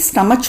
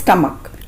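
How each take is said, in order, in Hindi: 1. यह शब्द ch ध्वनि पर खत्म होता है। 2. यह शब्द k ध्वनि पर खत्म होता है। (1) "कुछ लोग इसे स्टमच बोलते हैं" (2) "सही प्रोनाउंसिएशन है स्टमक"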